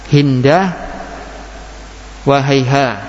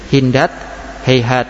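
First: The words end with h sounds. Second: The words end with t sounds. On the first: This is the rare pausal form. "dengan ha ... Jarang" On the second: This is the common pausal form. "yang sering ... dengan tak waqafnya"

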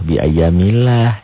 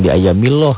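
First: The L of Allah is light and thin. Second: The L of Allah is heavy and thick. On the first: The speaker calls it right. "Dibaca tipis berbunyi A" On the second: The speaker calls it wrong.

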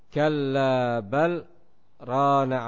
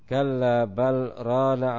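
First: There is a brief breathless pause after bal. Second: The words run on with no pause after bal. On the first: "diam sejenak, berhenti tetapi tidak mengambil nafas" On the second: "boleh pula untuk kita sambung ayatnya"

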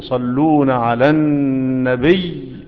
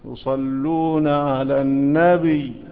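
First: The final ya sound is doubled. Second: The final ya sound is single. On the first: The speaker calls it right. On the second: The speaker calls it wrong.

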